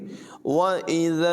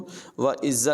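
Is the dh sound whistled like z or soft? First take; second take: soft; whistled. First: The dh sound is soft without any whistle. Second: The dh sound is hissed like a whistling z. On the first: The speaker calls it right. "بلکہ پڑھیں گے" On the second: The speaker calls it wrong. "اس کو وَإِذَا الْزَل نہیں پڑھیں گے"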